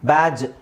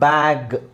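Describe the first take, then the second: First: The word ends with a soft j sound. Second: The word ends with a hard g sound. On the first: The speaker calls it wrong. "ಅಂತ ಹೇಳೋಕ್ಕಾಗಲ್ಲ" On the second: The speaker calls it right. "ಇಲ್ಲೆಲ್ಲ ಗನೇ ಇರೋದು"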